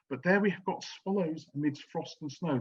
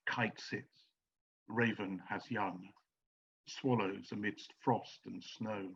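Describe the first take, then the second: First: Said in the usual way. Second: Slow, soft reading of verse; hushed, measured verse reading; poem reading. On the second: Shown as a demonstration. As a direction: let each image hang, slowly and quietly. Reading a short nature verse.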